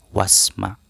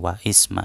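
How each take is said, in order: First: Wa joins straight onto sma with no vowel. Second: An extra i vowel is sounded after wa. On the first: The speaker calls it right. "bukan wa isma tapi wasma" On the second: The speaker calls it wrong. "bukan wa isma"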